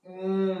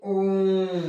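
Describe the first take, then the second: First: Said in the usual way. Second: ओम drawn out very slowly, the ओ held long; prolonged vowel demo. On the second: Shown as a demonstration. Teacher demonstrating a pluta vowel to students, slow drawn-out ओम. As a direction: stretch ओम out like a chant. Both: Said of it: "उन्हें प्लूत स्वर कहते हैं".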